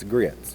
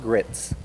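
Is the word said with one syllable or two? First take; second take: two; one. First: It is drawn out into two syllables, Southern-style. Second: It is said as one short syllable.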